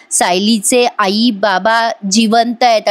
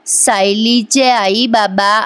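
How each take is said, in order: First: Slow, halting words of a patient; a hint of a weak old man, slow; slow, weak speech. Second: Very slow, stretched words; slow motion. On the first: Patient whispering the secret to Arjun, slow. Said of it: "Madhubhau म्हणत असतात". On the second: Retold or imitated. Recapping the serial, echoing the slow-motion line. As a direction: drag each word out like slow motion. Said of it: "असं जरा slow मोशनमध्ये ऐकवलं".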